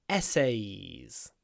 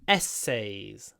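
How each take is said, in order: Both takes have the same delivery.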